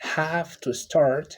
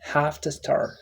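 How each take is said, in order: First: Each word is said fully and separately. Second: The words blend into a short reduced form. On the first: "the phrase have to start" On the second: "which transformed to"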